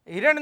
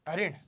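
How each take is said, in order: First: The word begins with 'hi' and ends 'ran'. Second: The word begins with 'ha' and ends 'rin'. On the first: This is the common everyday form. The speaker calls it wrong. "हिरण नहीं" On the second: This is the standard correct form. The speaker calls it right. "शुद्ध क्या है, हरिण"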